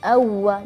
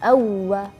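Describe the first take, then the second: The two takes are said the same way.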